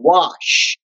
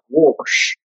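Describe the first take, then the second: First: It is said plainly, without an added R. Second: It is said southern-style, with an extra R.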